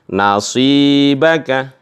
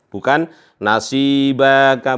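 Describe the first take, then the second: First: The final vowel is kept short. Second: The final vowel is drawn out long. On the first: The speaker calls it right. "tapi nasibaka ya" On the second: The speaker calls it wrong.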